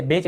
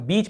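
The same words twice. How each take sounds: First: बेच, vowel as in "bay"; mistaken ay vowel. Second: बीच, rhyming with "each"; long ee vowel. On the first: Teacher showing students the misreading, बेच with "ay". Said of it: "इसे बेच नहीं पढ़ रहे हैं". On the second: Teacher showing students the EA sound, बीच with "ee". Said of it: "देखिए हम बीच पढ़ रहे हैं". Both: Shown as a demonstration.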